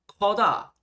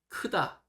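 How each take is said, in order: First: The first vowel is an open 'eo' sound. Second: The first vowel is an unrounded 'eu' sound. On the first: The speaker calls it wrong. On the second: The speaker calls it right.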